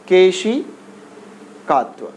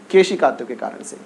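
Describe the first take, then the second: First: Drawn-out term. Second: Said in the usual way. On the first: Shown as a demonstration.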